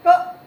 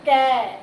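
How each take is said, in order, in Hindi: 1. व्यंजन बिना स्वर के, अकेला बोला जाता है। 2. व्यंजन के बाद स्वर की ध्वनि आती है। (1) "ये हमारा बिना स्वर के कै है" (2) "कै का उच्चारण करते समय हमने ए की सहायता ली है"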